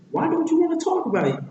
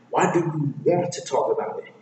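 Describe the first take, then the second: First: High, fast pestering sidekick; very high, insistent question; Donkey. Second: Lightly voiced grumpy retort; Shrek. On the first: Acted. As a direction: badger in a squeaky rush. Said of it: "And then Donkey says". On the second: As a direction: throw the question back, stressing "want". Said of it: "And Shrek replies back".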